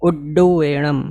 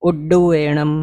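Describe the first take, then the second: No difference in how they are said.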